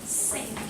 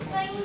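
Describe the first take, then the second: First: It begins with a hissing 's' sound. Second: It begins with the tongue-between-teeth 'th' sound. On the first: The speaker calls it wrong. "it sounded like sing" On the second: The speaker calls it right. "like for example, think"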